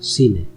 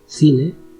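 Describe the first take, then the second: First: The word begins with an s sound. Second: The word begins with a th sound. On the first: This is how it is said in Latin America. "in Latin America, the pronunciation is C, ci" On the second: This is how it is said in Spain. "In Spain, we pronounce C, ci, with the sound th"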